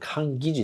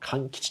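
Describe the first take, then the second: First: The middle consonants are voiced, like g and j. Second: The middle consonants are voiceless, like k and ch. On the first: This is the formal reading of the term. "濁音でね、濁らすんですけども" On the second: This is the speaker's own chosen reading for the channel name. "私はちょっとあえて、この勘吉というね"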